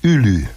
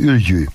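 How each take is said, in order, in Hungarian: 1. A középső mássalhangzó sima l. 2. A középső mássalhangzó kemény palatális ly hang.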